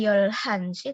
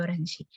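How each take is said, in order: First: An l followed by a heard h. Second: A flap between r and l, no h. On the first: The speaker calls it wrong. "bukan Yolhansi" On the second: The speaker calls it right. "tengah-tengah antara R sama L"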